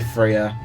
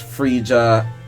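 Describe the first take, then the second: First: The name is said with two syllables. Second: The name is said with three syllables. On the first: The speaker calls it right. "It's really Freya" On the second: The speaker calls it wrong. "I also like mispronounced her name as Frisia"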